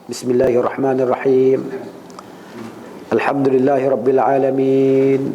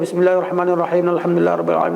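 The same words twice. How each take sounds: First: There is a pause between the two verses. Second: The two verses run on without a pause.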